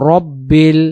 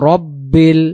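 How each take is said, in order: The two takes are said the same way.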